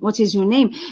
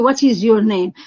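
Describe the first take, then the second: First: The voice rises at the end. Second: The voice falls at the end.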